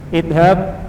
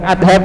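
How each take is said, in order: First: The first vowel is an 'i' sound. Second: The first vowel is an 'a' sound. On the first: The speaker calls it right. "Idhab bukan adhab ya, tapi idhab" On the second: The speaker calls it wrong. "bukan adhab"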